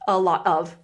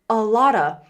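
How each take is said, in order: First: Each word is said separately and clearly. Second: The words run together into 'a lotta'.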